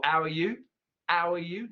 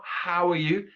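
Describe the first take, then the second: First: How said as ow, no H; ow are you, H dropped. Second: Said in the usual way. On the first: Shown as a demonstration. Teacher demoing Cockney how are you.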